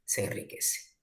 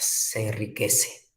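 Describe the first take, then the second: First: Whispered echo of "Se enriquece"; soft whispered repeat. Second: Said in the usual way. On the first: Shown as a demonstration. Teacher repeats, second echoed.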